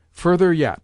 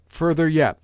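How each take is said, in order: First: Louder, higher insistent call; crying out. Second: The same call a little less loud; repeated cry. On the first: Old lady ordering the lackeys to pull the counterpane, loud. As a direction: push the lackeys on, loudly. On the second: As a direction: repeat the order, easing off slightly. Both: Acted. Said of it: "the old lady cried".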